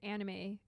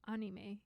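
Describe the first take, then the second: First: It has an everyday English-style pronunciation. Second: It has a Japanese-style pronunciation. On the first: This is the habitual way it was first learned. "It's always anime from the start" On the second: This is the correct way, as in Japanese. "If you want to be like politically correct, it's anime"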